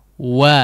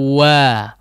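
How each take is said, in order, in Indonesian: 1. Mulut terbuka lebar untuk vokal 'a' yang jelas. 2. Mulut terbuka lebar untuk vokal 'a' yang jelas.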